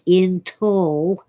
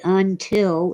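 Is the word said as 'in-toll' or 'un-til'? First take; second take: in-toll; un-til. First: The word begins with 'in' and ends 'toll'. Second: The word begins with 'un' and ends 'til'. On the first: The speaker calls it wrong. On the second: The speaker calls it right.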